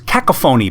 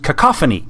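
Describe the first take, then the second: First: The word gets a deliberately odd, jokey pronunciation. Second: The word gets its ordinary standard pronunciation. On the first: "we used to pronounce it as cacophony because it was just funnier that way" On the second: "the twenty-five cent word for when things are really noisy and chaotic is"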